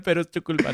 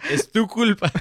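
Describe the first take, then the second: First: Said in the usual way. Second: Laughing blame, higher and louder; giggling accusation at the ex. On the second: Real, not acted. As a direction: blame her through laughter. Joking blame at ex-girlfriend.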